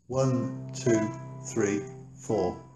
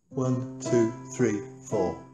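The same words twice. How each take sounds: First: The counting is at a medium pace. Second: The counting is at a faster pace.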